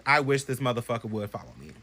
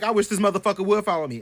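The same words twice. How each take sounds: First: Said in the usual way. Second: Higher, cocky dare. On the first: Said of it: "I sat here and said". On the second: Retold or imitated. Bragging to friends, cocky dare. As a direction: taunt the ghost boldly. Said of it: "I'm like".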